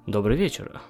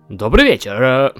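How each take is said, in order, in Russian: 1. Сказано обычным, естественным голосом. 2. Сказано специальным, наигранным голосом. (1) "Просто обычным" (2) "чтобы я говорил голосом? Вот таким?"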